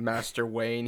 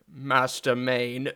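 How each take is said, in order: First: Said in the usual way. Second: Slow, drawn-out mock British butler accent; mock Michael Caine accent. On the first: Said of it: "instead of saying Master Wayne". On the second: Joking about the Batman butler, drawn-out British accent. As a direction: stretch it out in a put-on British actor's accent. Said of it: "he was like".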